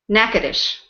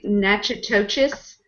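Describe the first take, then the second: First: The name is pronounced unlike its spelling. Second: The name is pronounced letter by letter as spelled. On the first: The speaker calls it right. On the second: The speaker calls it wrong.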